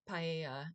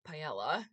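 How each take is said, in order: First: Said in the speaker's own usual pronunciation. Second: Said the way British people pronounce it.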